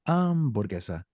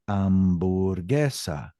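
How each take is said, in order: First: The stress falls on the first syllable. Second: The stress falls on a later syllable. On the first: The speaker calls it wrong. "I don't say hamburguesa" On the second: The speaker calls it right. "I say hamburguesa"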